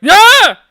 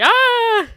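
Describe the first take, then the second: First: Full, much higher and louder scream; proper loud scream. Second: Mock weak high squeak; pathetic little scream. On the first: Shown as a demonstration. Showing Damien how to really scream, full loud scream. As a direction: let out a real horror-movie scream. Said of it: "you gotta go like". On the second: Mocking Damien's scream, feeble high yelp. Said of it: "that pathetic little scream".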